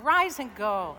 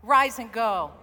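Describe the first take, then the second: First: Loud congregational call; rousing call again. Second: Loud congregational call; rousing call. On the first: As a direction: rise and go called out loud, a touch less. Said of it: "One more time". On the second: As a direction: rise and go called out loud. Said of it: "Say it one more time". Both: Shown as a demonstration.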